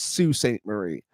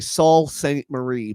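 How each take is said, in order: First: The first word sounds like 'Soo'. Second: The first word sounds like 'Saul'. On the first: The speaker calls it right. "but it's uh said Sue" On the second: The speaker calls it wrong. "It's spelled like it should say Saul Saint Marie"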